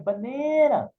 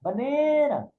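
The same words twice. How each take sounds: First: The vowels are stretched out long. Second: The same.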